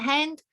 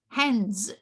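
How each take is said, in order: First: The word ends without an s sound. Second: The word ends with an s sound. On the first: The speaker calls it wrong. "it's a typical mistake in Cambodia. It's hand and" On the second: The speaker calls it right. "You have to say hands"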